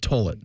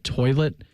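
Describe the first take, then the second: First: The first vowel is an 'ur' sound, like 'turlet'. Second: The first vowel is a plain 'oi' sound. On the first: "in that Southern accent ... said it's gone down the toilet" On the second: "instead of saying like the sport's gone down the toilet"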